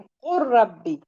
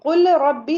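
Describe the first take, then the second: First: The l merges into a doubled r sound. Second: The l is pronounced separately before rabbi. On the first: The speaker calls it right. "लाम को नहीं पढ़ेंगे हम" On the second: The speaker calls it wrong. "कुल रब्बी नहीं पढ़ेंगे"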